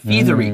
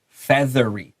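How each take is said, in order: First: The first vowel is a long e sound. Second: The first vowel is a short e sound. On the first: The speaker calls it wrong. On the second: The speaker calls it right. "duan E"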